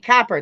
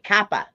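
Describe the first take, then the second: First: The word ends with an r sound. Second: The word ends without an r sound. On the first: "You'll hear people say copper" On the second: "Or in New England, they'll say coppa"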